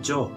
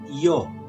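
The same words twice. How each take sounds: First: It starts with a j-like sound, Argentine style. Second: It starts with a y sound, Spain style. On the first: "kalau di Argentina kami menyebutnya yo, yo, seperti huruf J" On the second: "kalau di Spanyol mereka menyebutnya yo"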